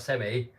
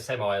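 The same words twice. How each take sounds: First: The word is said with a British pronunciation. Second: The word is said with an American pronunciation. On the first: It refers to something rude. "if you say in the U K I've got a semi, it means something else" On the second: It refers to a large truck. "Americans say semi, they pronounce it differently"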